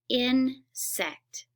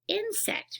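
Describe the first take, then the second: First: The word is split into separate parts. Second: The word is said smoothly as one unit. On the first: "I'm going to split a word" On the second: "put it back together"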